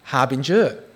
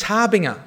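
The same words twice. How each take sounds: First: Harbinger said with a soft j sound, "har-bin-jer"; harbinger, soft g as in "ginger". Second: Harbinger said with a hard g like "harbing-uh"; harbinger, hard g as in "finger". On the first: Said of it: "it's pronounced". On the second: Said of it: "Mate, it's harbinger". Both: Shown as a demonstration.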